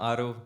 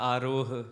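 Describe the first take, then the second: First: The name ends on a plain vowel, no h. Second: The name ends with a breathy h sound. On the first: The speaker calls it wrong. "सही लिया है मैंने नाम आरो" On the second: The speaker calls it right. "या आरोह?"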